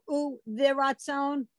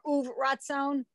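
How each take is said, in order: First: A short vowel is sounded after the v. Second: The v closes straight onto ratzon, no vowel.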